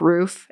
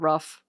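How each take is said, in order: First: The vowel is long, as in boot. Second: The vowel is short, as in book. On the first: This is the Canadian way of saying it. "I say like certain words very Canadian, like roof" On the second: This is the American way of saying it. "instead of rough"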